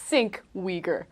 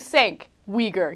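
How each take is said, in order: First: The first word has an 'i' vowel sound. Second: The first word has an 'a' vowel sound. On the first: "There's no I in your name" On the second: "he didn't call you Sank Uyghur"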